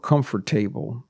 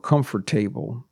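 First: Every syllable is said fully, following the spelling. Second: The same.

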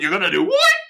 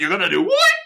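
First: It is said in a scared voice. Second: The same.

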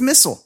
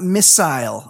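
First: Missile is pronounced the American way. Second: Missile is pronounced the British way. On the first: The speaker calls it right. "We say missile here" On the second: The speaker calls it wrong. "it's not missile"

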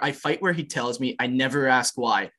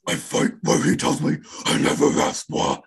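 First: It is read in a normal speaking voice. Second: It is growled in a harsh death-metal voice.

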